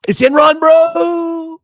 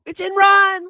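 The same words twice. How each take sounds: First: Shouted high and loud, ENRON punched; shouting. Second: Even higher, strained shout on ENRON. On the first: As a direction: yell it out in disbelief. Yelling about a stock collapse. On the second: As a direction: push the yell up to the top of the voice. Repeated yell about the stock. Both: Real, not acted.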